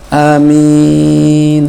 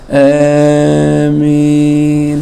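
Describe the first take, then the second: First: The first vowel is short. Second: The first vowel leans toward e. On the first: "Hamzanya pendek" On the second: "rada imalah antara hamzah sama kasrah, fathah sama kasrah"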